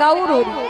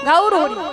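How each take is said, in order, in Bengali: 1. প্রথম শব্দটি 'gaur' এর মতো টেনে বলা হয়েছে। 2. প্রথম শব্দটি 'gaur' এর মতো টেনে বলা হয়েছে।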